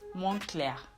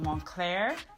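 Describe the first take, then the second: First: The word ends with a faint 'a'-like vowel. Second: The word ends without a trailing vowel. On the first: The speaker calls it right. "almost as if there is an A at the end" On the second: The speaker calls it wrong. "So it is not Moncler"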